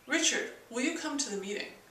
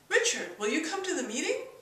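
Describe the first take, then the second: First: The pitch falls at the end. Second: The pitch rises at the end. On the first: It gives an order. "a command tone, which goes down at the end" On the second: It asks a real question. "There's the question tone"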